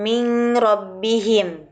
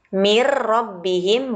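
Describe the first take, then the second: First: A nasal n sound is heard before the r. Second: The n merges into a doubled r, no nasal. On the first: The speaker calls it wrong. "bukan min rabbihim" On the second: The speaker calls it right. "tidak dengan dengung"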